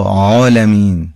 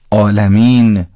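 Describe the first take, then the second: First: Slow Arabic-style ع in عالمین; Arabic ayn. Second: عالمین opening on a plain vowel, no pharyngeal ع; slow Persian-style عالمین; Persian pronunciation. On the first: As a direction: squeeze the throat to start عالمین. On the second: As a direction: say عالمین as if it began with آ. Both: Shown as a demonstration. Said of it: "خیلی فرق".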